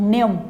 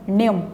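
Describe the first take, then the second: No difference in how they are said.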